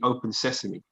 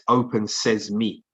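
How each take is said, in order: First: The end is one word, sesame. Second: The end is two words, says me. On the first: The speaker calls it wrong. "it's not actually open sesame" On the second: The speaker calls it right. "It's open says me"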